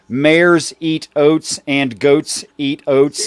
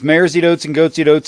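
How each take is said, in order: First: The phrase is said slowly, each word separate. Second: The phrase is said quickly, words running together. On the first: "if you slow it down" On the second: "if you say it at normal speed"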